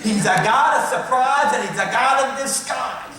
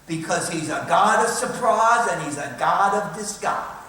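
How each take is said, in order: First: It is said in a southern accent. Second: It is said in his ordinary accent.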